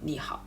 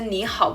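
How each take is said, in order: First: The first syllable has a dipping third tone. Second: The first syllable has a rising second tone. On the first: The speaker calls it wrong. "bukan ni hao" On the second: The speaker calls it right. "kenapa saya baca ni hao"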